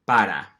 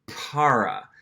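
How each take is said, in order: First: "para" with a tapped Spanish R; crisp flap in the middle of "para"; Spanish pronunciation. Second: "para" with an American English R; English-speaker's "para", gringo R untapped; gringo accent. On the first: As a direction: tap the R once in "para", Spanish style. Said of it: "pronounce the Spanish word". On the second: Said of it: "gringo accent or non-native accent". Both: Shown as a demonstration.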